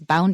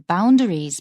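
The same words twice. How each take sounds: First: The word is said quickly and casually. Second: The word is said slowly and carefully. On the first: It is ordinary free speech. "when he's just speaking freely" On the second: It is being read aloud with care. "When he's reading it carefully"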